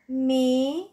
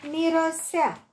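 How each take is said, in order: First: "Mirosea" broken into three separate syllables, mi-ro-sea. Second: Said in the usual way. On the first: Shown as a demonstration. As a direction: split "Mirosea" as mi, ro, sea, pausing between. („Mirosea” rostit pe silabe: mi-ro-sea) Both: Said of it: "Desparte în silabe cuvintele date".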